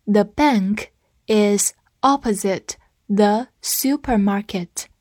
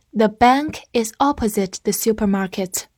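First: Slow, word-by-word model sentence; slow reading. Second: Said in the usual way. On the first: Shown as a demonstration. Teacher leading learners through the sentence, slow reading. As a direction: read it slowly with gaps for learners to follow. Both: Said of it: "跟我慢读一遍".

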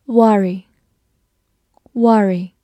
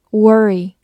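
First: Said in the usual way. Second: "worry" with an r-coloured first vowel; alternative pronunciation. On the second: Shown as a demonstration. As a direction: say "worry" to rhyme with furry. (worry的另一种读法，第一个元音卷舌) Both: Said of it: "或者也可以读作".

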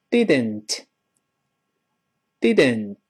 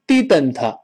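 First: Didn't slowly, with a light voiceless t; careful slow model. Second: Didn't said as "di-den-tuh"; wrong syllables. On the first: Teacher reading slowly for students, didn't with light final t. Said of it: "我们慢慢读一下这词". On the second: Teacher showing a mistake, didn't with extra vowel sounds. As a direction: add a full vowel after the t of didn't. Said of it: "不是". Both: Shown as a demonstration.

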